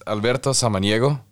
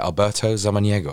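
First: The name is said in a Spanish accent. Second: The name is said in a British accent.

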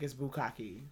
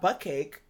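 First: The word is said as 'bukkake'. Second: The word sounds like 'butt cake'. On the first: The speaker calls it right. "It's not butt cake. It's bukkake. That sounds way better" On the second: The speaker calls it wrong. "I've been saying bukkake wrong"

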